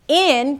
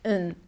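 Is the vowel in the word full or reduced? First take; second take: full; reduced. First: The word has its full vowel. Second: The vowel is reduced to a neutral sound.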